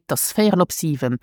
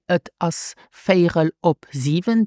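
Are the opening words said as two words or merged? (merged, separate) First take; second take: merged; separate. First: The opening words are merged into one word. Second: The opening words are said as two separate words. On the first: The speaker calls it right. "They would say" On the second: The speaker calls it wrong. "native speaker would not say"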